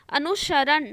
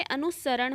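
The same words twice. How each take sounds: First: "अनुसरण" as anu-sharan, with sh; wrong sh sound. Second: "अनुसरण" as anu-saran, with plain s; correct s sound. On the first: Teacher quoting the error to students, mispronounced. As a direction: put sh in place of s in "अनुसरण". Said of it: "ना हो के". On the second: Teacher correcting the word, pronounced properly. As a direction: say "अनुसरण" with a clear s. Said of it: "अनुसरण होता है". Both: Shown as a demonstration.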